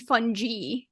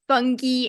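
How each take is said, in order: First: The g is said as a soft g. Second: The g is said as a hard g.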